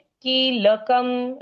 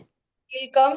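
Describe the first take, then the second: First: Each consonant is fully sounded with its vowel. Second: The consonants are clipped, with short vowels. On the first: This is how it is said in Sanskrit. "Sanskrit में कीलकम। ल का उच्चारण पूर्ण, क का उच्चारण पूर्ण" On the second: This is how it is said in Hindi. "Hindi में"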